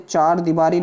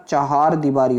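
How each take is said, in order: First: "चार दीवारी" with one-syllable chaar; wrong "चार दीवारी". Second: "चहार दीवारी" with two-syllable cha-haar; correct "चहार दीवारी". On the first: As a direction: say चार दीवारी without any ह. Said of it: "नहीं होता". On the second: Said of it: "होता है". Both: Shown as a demonstration.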